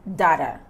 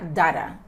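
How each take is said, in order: No difference in how they are said.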